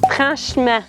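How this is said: It is said with a Quebec French accent. "faire une petite twist dans les sons ... parler correctement québécois"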